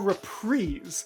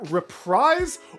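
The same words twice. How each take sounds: First: The last syllable rhymes with breeze. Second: The last syllable rhymes with fries. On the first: "or breeze?" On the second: "do you rhyme it with fries"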